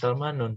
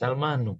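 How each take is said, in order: First: The word ends with a final n sound. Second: The word ends without a final n sound. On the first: The speaker calls it wrong. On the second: The speaker calls it right.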